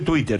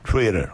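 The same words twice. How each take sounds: First: The word is said with a Spanish-style accent. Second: The word is said with an English-style accent. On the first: The speaker calls it wrong. "No se dice Twitter" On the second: The speaker calls it right. "se dice Twitter"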